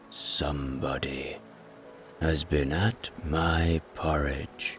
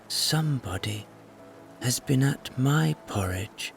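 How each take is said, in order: First: A great, rough, gruff deep voice. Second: A medium, in-between bear voice.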